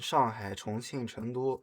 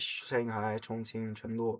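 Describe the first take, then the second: First: The names are said with a Mandarin pronunciation. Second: The names are said with an anglicized accent.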